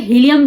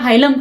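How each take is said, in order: First: The first vowel sounds like 'ee'. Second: The first vowel sounds like 'eye'. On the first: Some places say it this way. "कई जगह उसको हीलियम भी बोल देते हैं" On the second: Other places say it this way. "कई जगह उसको हाइलम प्रोनाउंस किया जाता है"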